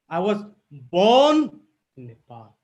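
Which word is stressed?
born. The stress falls on the word born. The speaker is a native, not a newcomer. "If I give emphasis here"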